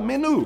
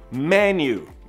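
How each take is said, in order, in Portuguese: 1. A vogal final é um som de 'oo' simples. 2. A vogal final soa como 'you'. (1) "como a gente fala menu no Brasil ... só que não fala menu" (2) "Esse U tem som de you mesmo"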